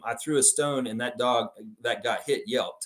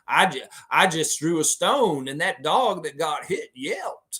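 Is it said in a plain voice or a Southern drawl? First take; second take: plain voice; Southern drawl. First: It is read in a plain, normal voice. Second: It is said in a Southern drawl.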